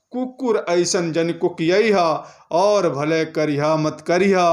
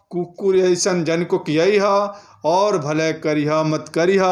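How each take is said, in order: Both takes have the same delivery.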